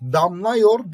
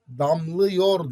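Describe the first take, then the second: First: The vowel after daml is a wide a. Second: The vowel after daml is a narrow ı. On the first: The speaker calls it wrong. "damlıyor diyemiyorsun" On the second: The speaker calls it right. "Damlıyor diyorsun"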